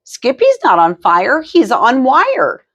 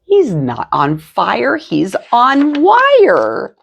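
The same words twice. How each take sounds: First: Put-on high playful child voice, stretching wire; a sister correcting with a sing-song lilt; little sister voice. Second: Slowed, high drawn-out wire; repeated child line. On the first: Sister teasing the family in a high sing-song. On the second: Sister repeats the line, slow and high-pitched. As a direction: say it again, stretching the last word. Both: A narrator's reading.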